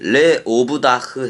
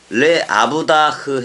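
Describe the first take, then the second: First: The vowel after le is an o sound. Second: The vowel after le is an a sound. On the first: The speaker calls it right. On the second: The speaker calls it wrong.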